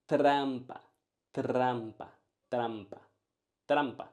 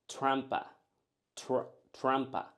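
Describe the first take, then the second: First: Trampa with a tapped Spanish R; rolled R. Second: Trampa with soft English R. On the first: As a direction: tap the r in trampa. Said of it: "but it's". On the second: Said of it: "Usually I hear people saying". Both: Shown as a demonstration.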